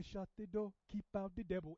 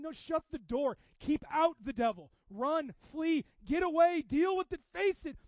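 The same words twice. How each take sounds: First: Lightly imitated African accent. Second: Loud, high preaching shout; urgent exhortation. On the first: Imitating African brothers at prayer, light African accent. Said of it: "say it like that with a good solid accent". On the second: Real, not acted. Preacher telling congregation to shut out the devil, urgent shout. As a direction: fire off urgent commands at full force.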